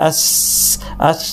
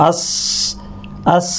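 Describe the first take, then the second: The two takes are said the same way.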